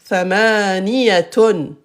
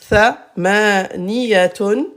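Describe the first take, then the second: No difference in how they are said.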